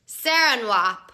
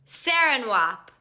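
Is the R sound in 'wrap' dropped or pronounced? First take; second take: dropped; dropped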